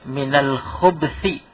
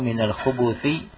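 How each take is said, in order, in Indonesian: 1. Tidak ada vokal yang terdengar di antara b dan th. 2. Ada vokal yang terdengar di antara b dan th. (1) "dibaca minal khubthi, albanya disukun" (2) "ini versi yang pertama, al-khubuth"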